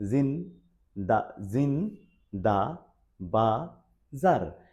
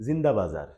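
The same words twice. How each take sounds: First: "জিন দা, জিন দা বাজার" drawn out slowly, syllable by syllable; broken into syllables. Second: Said in the usual way. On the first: Shown as a demonstration. Teacher showing learners four syllables, "জিন দা, জিন দা বাজার" slowly broken apart. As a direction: split "জিন", "দা" and "বাজার" into separate, stretched sounds. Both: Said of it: "ভেঙে ভেঙে যে sound".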